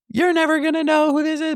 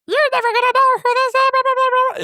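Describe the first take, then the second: First: Said in the usual way. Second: Very high, fast squeaky chipmunk voice; tiny helium chipmunk voice; chipmunk voice changer. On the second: Retold or imitated. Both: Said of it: "but it sounds like".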